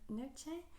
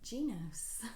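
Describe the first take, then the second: First: The name ends in a vowel sound. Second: The name ends in an S sound. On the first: The speaker calls it wrong. "I used to always pronounce it Noche" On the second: The speaker calls it right. "according to them, it is pronounced Genos"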